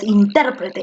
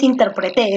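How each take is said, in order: First: The stress is on the second syllable. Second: The stress is on the last syllable. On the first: The speaker calls it right. "es intérprete" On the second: The speaker calls it wrong. "porque no es intérprete"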